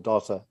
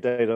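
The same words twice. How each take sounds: First: The word is said in a British way. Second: The word is said in an American way. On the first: "or in the U K" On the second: "depending if I'm in the U S"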